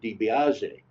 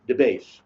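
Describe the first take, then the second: First: The surname is said in its full form. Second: The surname is said in a shortened form. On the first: This is the speaker's own way of saying the name. "I would pronounce it DiBiase" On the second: This is how local people said the name. "They just said"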